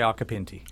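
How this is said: The name is pronounced with English vowels. "Anglicized, yeah. People say Occhipinti"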